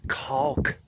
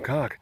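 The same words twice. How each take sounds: First: The L sound is clearly pronounced. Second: The L sound is left out. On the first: The speaker calls it right. "I have to make sure to pronounce the L" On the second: The speaker calls it wrong. "because if not"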